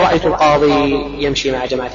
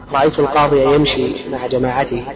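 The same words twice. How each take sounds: First: Al-qadi ending in a bare long i; qadi without fatha. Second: Al-qadi ending in a clear -ya; qadiya with audible fatha. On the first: Teacher shows what not to say, al-qadi with no final fatha. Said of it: "فلا تقول". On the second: Teacher shows the correct case ending, fatha voiced on al-qadiya. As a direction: sound the final a on al-qadiya. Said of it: "تظهر لخفتها على الياء". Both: Shown as a demonstration.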